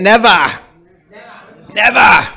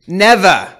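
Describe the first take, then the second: First: "Never" in a New England accent, r dropped. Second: Said in the usual way. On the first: Shown as a demonstration. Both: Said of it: "Or in the New England accent".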